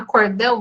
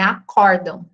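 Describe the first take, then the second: First: The stress falls on the last syllable. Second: The stress falls on the second syllable. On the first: The speaker calls it wrong. "Eu acho tão mais natural falar acordão, mas não" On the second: The speaker calls it right. "é acordam"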